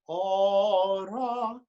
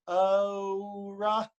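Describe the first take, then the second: First: The first vowel stays a pure vowel. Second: The first vowel glides as a diphthong. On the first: The speaker calls it right. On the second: The speaker calls it wrong.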